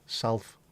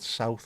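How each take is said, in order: First: The word is said with an 'al' sound, like salth. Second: The word is said with the usual 'ow' vowel. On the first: "pronounce the word south as Salth, S A L T H" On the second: "the word south"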